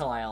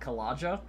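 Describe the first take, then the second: First: The middle consonant is a Y sound. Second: The middle consonant is a hard J sound. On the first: The speaker calls it right. "Kalaya like that" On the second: The speaker calls it wrong. "I definitely wouldn't pronounce it Kalaja because I'm not an idiot"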